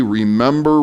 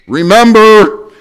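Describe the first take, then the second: First: Said in the usual way. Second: Slow, loud, drawn-out remember; emphatic remember. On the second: Real, not acted. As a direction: hammer the first point home. Preacher's point shouted.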